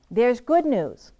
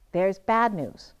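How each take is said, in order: First: Slow, louder good news; "good" said brightly and slowly; upbeat contrast. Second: Slow and lower for the bad news; "bad" dropped low and slow; downbeat contrast. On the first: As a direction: deliver the good news with weight. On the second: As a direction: let the bad news sink. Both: Shown as a demonstration. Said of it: "competing messages to deliver".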